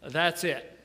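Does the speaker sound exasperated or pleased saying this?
exasperated. It is said in a fed-up, exasperated tone. The speaker has reached the limit of patience. "I've had it. I can't take another minute"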